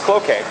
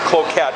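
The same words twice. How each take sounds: First: The name is said the way locals say it. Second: The name is sounded out as it is written. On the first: The speaker calls it right. "it's Cloquet" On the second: The speaker calls it wrong. "It looks like Cloquet"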